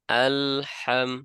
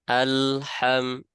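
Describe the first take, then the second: No difference in how they are said.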